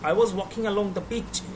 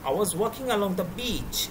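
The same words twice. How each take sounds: First: The vowel in the last word is short. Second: The vowel in the last word is long. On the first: The speaker calls it wrong. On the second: The speaker calls it right.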